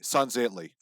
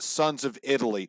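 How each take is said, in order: First: The name is run together as one word. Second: The name is said as three separate words. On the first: The speaker calls it right. "It's all one word" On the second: The speaker calls it wrong. "It's not Sons of Italy"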